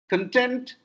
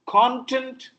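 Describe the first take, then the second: First: The stress is on the second syllable. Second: The stress is on the first syllable. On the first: It means happy. "I'm happy" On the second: It means subject matter. "subject matter"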